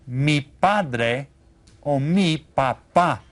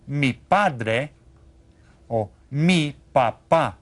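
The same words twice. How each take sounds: The two takes are said the same way.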